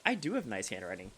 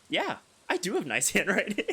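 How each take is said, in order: First: Said in the usual way. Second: "Yeah, I do have nice handwriting" said high and loud with a laugh; smug bragging. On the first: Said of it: "you can say to them directly". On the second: Shown as a demonstration. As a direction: brag about "have" like a show-off, laughing. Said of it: "Okay, maybe not like that".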